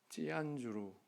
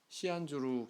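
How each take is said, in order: First: The name begins with a tense stop sound. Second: The name begins with a hissing s sound.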